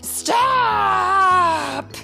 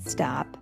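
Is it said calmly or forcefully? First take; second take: forcefully; calmly. First: It is said loudly and forcefully. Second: It is said in a calm, plain way.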